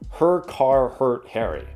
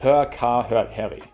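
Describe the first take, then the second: First: The final R in car is clearly pronounced. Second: The final R in car is almost silent.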